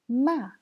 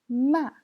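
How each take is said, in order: No difference in how they are said.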